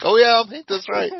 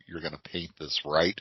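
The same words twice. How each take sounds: First: Much higher and louder, hammed-up eagerness; mock eager reply. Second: Low, soft, knowing question; friend asking. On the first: Painter answers the store owner in a high, loud, mock-eager squeal. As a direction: squeal it back like an overexcited fan. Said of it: "And I'm like". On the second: Retold or imitated. Store owner quietly asks the painter, low and soft. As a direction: lower and softer, a quiet sly check. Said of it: "and he goes".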